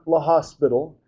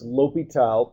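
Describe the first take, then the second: First: The h and s sounds are pronounced. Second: The h and s sounds are silent. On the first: The speaker calls it wrong. "it's not La Hospital" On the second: The speaker calls it right. "you pronounce this L'Hôpital"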